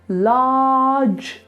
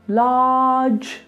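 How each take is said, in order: No difference in how they are said.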